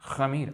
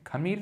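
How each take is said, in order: First: The first sound is a rough friction in the throat. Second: The first sound is a plain k with breath. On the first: The speaker calls it right. "अंदर से आना चाहिए एकदम हलक से" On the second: The speaker calls it wrong. "खमीर नहीं"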